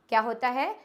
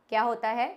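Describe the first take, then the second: The two takes are said the same way.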